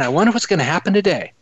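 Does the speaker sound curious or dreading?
curious. It sounds curious and hopeful. The day is looked forward to as an adventure. The speaker calls it right. "I honestly will say to myself as I wake up in the morning"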